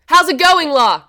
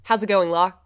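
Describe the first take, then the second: First: High, loud, with "la" joined on; loud exclamation. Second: Said in the usual way. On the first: Shown as a demonstration. Student retrying the slang greeting for the teacher, loud exclamation. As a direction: belt it out as an exclamation, no gap before "la". Bigger retake, exclamation not question.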